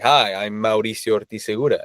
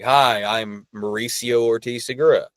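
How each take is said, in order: First: The name is said with a Mexican Spanish accent. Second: The name is said with an American accent.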